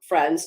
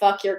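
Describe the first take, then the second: First: The name is pronounced the French way. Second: The name sounds like 'fuck your'. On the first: The speaker calls it wrong. "the way you would pronounce it in French" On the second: The speaker calls it right. "It sounds like fuck your county"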